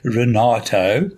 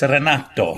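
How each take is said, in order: First: The name is said with an English accent. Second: The name is said with an Italian accent.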